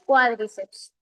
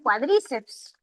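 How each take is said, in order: First: The stress falls on the first syllable. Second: The stress falls on a later syllable. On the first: The speaker calls it right. "La pronunciación es cuádriceps. Como es esdrújula" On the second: The speaker calls it wrong. "A veces los estudiantes pronuncian"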